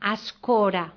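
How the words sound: The first vowel sounds like A. "en comptes de E diuen A"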